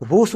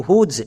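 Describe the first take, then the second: First: হুস said with a hissing s sound at the end; the mistaken হুস ending in s; wrong pronunciation. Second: হুজ said with a buzzing z sound at the end; correct pronunciation. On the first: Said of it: "ভুল করেও হুস উচ্চারণ করব না". (হুস শেষে দন্ত স দিয়ে ভুল উচ্চারণ) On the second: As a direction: say হুজ ending in z, not s. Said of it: "হুস উচ্চারণ করব না". (হুজ শেষে জ-এর মতো আওয়াজ দিয়ে বলা) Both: Shown as a demonstration.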